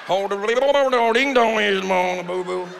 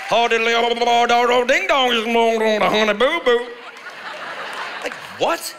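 First: Put-on garbled, gurgling Southern accent parody; yodeling underwater accent. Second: Put-on loud, garbled yodelling Southern accent parody; mocked Honey Boo Boo accent. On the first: Comic demonstrating yodeling underwater, garbled mocked accent. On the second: Comic mimicking people on Honey Boo Boo, loud garbled accent. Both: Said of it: "sound like they're yodeling underwater".

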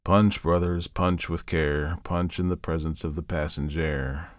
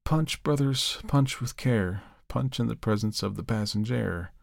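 First: Slow, sinking, softer chant; weary hopeless recitation; dreary, without enthusiasm. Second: Softer, lifeless, fading chant; dazed reverend droning the rhyme; without animation. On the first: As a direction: drone it out drearily, fading away. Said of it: "Drearily, without enthusiasm". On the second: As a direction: recite it vacantly, as if in a trance. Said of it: "without animation". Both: A narrator's reading.

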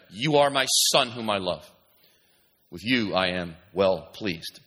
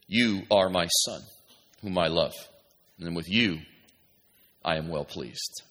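First: Firm, emphatic start settling lower and slower; voice from heaven. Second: Low, slow, hushed scripture reading; voice from heaven. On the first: Preacher repeating heaven's words to Jesus, firm then solemn. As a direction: declare it, then slow right down on the last phrase. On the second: God speaking to Jesus at his baptism, low and solemn. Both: Acted. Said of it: "a voice came from heaven".

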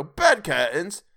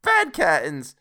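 First: Slow, high, loud rising question; incredulous question. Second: High, loud exclamation; brazen confirmation. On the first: Joe finding bed curtains in the bundle, incredulous. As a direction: draw it out and lift it in disbelief. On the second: Charwoman answering Joe's disbelief about the curtains, brazen. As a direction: confirm it proudly, pitched up. Woman gleefully confirms the loot. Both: A narrator's reading.

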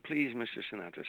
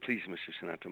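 First: Higher-pitched imitation of a scream; retold pleading scream. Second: Said in the usual way. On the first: Woman screaming after [name] at the limo, mild mock scream. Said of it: "you could hear her screaming". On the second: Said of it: "She said".

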